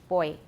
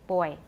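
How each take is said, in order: Both takes have the same delivery.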